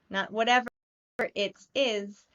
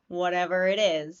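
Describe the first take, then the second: First: Each word is pronounced fully and separately. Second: The words are reduced and run together. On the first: The speaker calls it wrong. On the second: The speaker calls it right. "Everything runs together"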